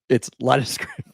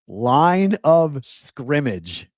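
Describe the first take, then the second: First: The phrase is said fast and run together. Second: The phrase is said slowly and clearly.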